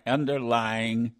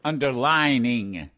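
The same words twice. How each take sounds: First: "Underlying" said slowly with "lying" in the middle; corrected word. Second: "underlining" said with a clear "line" in the middle; mispronounced word. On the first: Host correcting himself to the right word, "Underlying" said slowly. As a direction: carefully land on "Underlying" as the fix. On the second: Host fumbling the caller's word in his Ohio accent, "underlining" said slowly. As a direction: stretch out "underlining" slowly, stumbling over it. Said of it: "that's my Ohio accent". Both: Shown as a demonstration.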